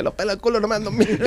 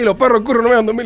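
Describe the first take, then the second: First: Imitating a child saying "pelos" and "culo" for "perros" and "curro"; soft, high voice, L replacing each R in "perros", "curro". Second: Quick, high prompt with rolled R in "perros" and "curro"; proper R. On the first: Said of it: "Y, y dice la L". (niño que dice «pelos» y «culo» por «perros» y «curro») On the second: Retold or imitated. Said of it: "Y yo se lo digo y digo". («perros» y «curro» con erre, rápido y agudo)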